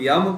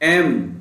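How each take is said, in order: First: It begins with a y sound. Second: It begins with a plain vowel sound. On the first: The speaker calls it wrong. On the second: The speaker calls it right.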